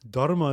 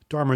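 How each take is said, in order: First: It is said with the original-language pronunciation. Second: It is said with an English-style pronunciation. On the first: This is how the word is properly said. "Dharma is the proper pronunciation" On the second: This form is easier for an English speaker. "because my mother tongue is English, Dharma is easier"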